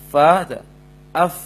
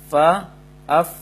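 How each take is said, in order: Both takes have the same delivery.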